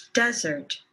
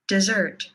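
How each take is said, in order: First: "desert" stressed on "des", short "sert"; first-syllable stress. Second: "dessert" with weak "de", strong "SSERT"; second-syllable stress. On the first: Teacher contrasting two words, first-syllable stress on "desert". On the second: Teacher contrasting two words, second-syllable stress on "dessert". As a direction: hit the last syllable of "dessert". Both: Shown as a demonstration. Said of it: "say these words with me".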